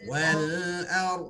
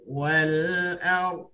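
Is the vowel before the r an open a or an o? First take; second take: open a; open a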